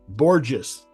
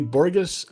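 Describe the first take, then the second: First: The G is said as a soft G. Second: The G is said as a hard G. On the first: The speaker calls it right. "It's the soft G" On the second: The speaker calls it wrong. "I said it wrong"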